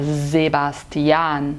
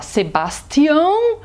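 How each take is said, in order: First: Sebastian with a buzzing z, slow and lower; z sound. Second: Sebastião with a sharp s, Portuguese style; wrong s. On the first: Teacher modelling German Sebastian. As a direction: draw out Sebastian starting with z. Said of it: "a gente fala". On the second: Teacher showing what not to say. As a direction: say Sebastião with a hard s. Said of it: "A gente não fala". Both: Shown as a demonstration.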